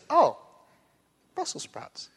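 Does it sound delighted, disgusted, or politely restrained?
politely restrained. It sounds neutral, hiding quiet disappointment.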